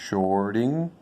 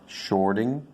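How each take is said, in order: Both takes have the same delivery.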